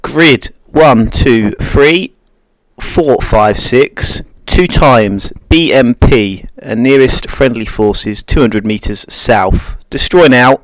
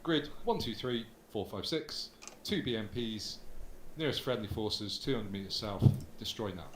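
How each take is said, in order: First: Calm radio call for fire. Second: Faster, brisk radio call; quick radio call for fire. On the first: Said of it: "So you play Romeo one". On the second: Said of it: "you could probably speed it up a bit". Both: Shown as a demonstration.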